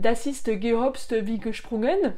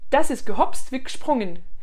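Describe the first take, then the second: First: It is spoken with a heavy French accent. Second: It is spoken naturally, with a swallowed syllable. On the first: The speaker calls it wrong. "ça c'est le magnifique accent français" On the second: The speaker calls it right. "On va essayer de parler naturellement"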